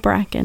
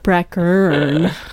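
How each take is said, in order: First: The word is said without an R sound. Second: The word is said with an R sound. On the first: The speaker calls it wrong. "You said it different" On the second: The speaker calls it right. "there's an R there"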